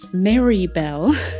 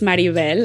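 First: The name is said with an American English accent. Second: The name is said with a Spanish accent. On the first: This is how others say the name instead. The speaker calls it wrong. "people in the United States wanted to pronounce it Maribel" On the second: This is how the speaker wants to be called. The speaker calls it right. "my name is Maribel"

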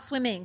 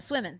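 First: The ending is said with a final g sound. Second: The ending is said without the final g. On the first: The speaker calls it wrong. "not swimming" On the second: The speaker calls it right. "Say it the southern way. ... Without the G"

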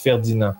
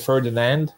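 First: The final D sound is silent. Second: The final D sound is pronounced. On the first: "in French you don't say the D" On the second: "in English you would say Ferdinand"

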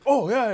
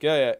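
First: It is said brightly, with enthusiasm. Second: It is said flatly, without enthusiasm.

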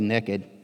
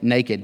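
First: It is said in a Texas accent. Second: It is said in a careful standard accent.

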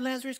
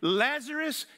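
First: It is said softly and hesitantly. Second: It is said loudly and with authority. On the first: The speaker doubts it will work. The speaker calls it wrong. "This was not a hesitant set of words here" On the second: The speaker is certain and in control. The speaker calls it right. "With fullness of authority, this is a loud outcry, a loud yell"

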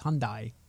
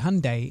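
First: The word does not rhyme with Sunday. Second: The word rhymes with Sunday. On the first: This is how it is said in Korea. The speaker calls it right. "if you go to Korea, it's Hyundai" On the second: This is how it is said in North America. The speaker calls it wrong. "we say Hyundai like Sunday"

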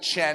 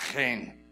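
First: The word begins without a throaty rasping sound. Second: The word begins with a throaty rasping sound. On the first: The speaker calls it wrong. "I've always called it chen" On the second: The speaker calls it right. "It has that nice Hebrew ch"

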